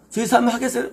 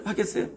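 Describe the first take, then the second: First: Said in the usual way. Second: Softer echo. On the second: Shown as a demonstration.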